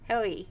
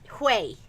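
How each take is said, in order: First: The name is said as 'ho-ee', like its spelling. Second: The name is said as 'hway', like 'way'. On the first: The speaker calls it wrong. "I shouldn't say Hoey. it looks like H O E Y" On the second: The speaker calls it right. "That's better"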